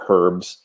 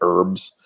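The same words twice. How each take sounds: First: It is said the Canadian way. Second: It is said the American way. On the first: "I say" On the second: "where you guys say"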